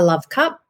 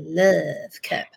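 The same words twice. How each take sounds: First: It is said in a plain, normal way. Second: It is said in a creepy-sounding way. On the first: The speaker calls it right. "pronouncing it correctly so that it doesn't sound creepy" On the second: The speaker calls it wrong. "as opposed to a love cup. So that's how it comes out in my head sometimes"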